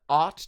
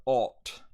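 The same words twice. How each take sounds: First: Said in the usual way. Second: OUGHT with long rounded 'aw'; British vowel. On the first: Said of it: "in American I P A". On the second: Shown as a demonstration. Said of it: "ought turns into ought".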